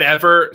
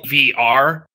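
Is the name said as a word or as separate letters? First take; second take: word; letters. First: It is said as one whole word. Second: It is spelled out as separate letters. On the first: The speaker doesn't know the insider pronunciation. The speaker calls it wrong. "if you said Ever" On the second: The speaker knows the insider pronunciation. The speaker calls it right. "it's the letters, not the name"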